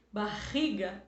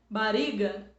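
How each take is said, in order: First: Barriga with a throaty H-like RR; strong double R. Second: Bariga with a light tapped R; mock wrong pronunciation; wrong soft R. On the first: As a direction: give the RR in Barriga a full guttural sound. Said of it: "com dois R's". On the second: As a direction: say Bariga with one weak tap. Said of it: "eu disse que fica fraco". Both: Shown as a demonstration.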